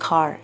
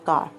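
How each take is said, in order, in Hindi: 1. k में हल्की साँस है, उसमें h मिला होता है। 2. k सादा है, उसमें कोई h नहीं मिला। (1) "के और एच ब्लेंड होता है इसमें" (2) "इट्स नॉट"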